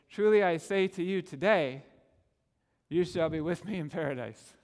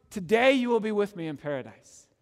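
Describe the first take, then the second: First: Truly I say to you today, then a pause before you shall be; mock Jehovah's Witness reading, pause after "today". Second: "Today" comes first and takes the weight; pause before today. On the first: Preacher showing the other punctuation, the pause placed after today. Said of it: "it had the same words but different punctuation". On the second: Preacher showing the right reading, today opening the promise. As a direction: stress on "Today", with a break before it. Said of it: "that can only be taken to mean". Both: Shown as a demonstration.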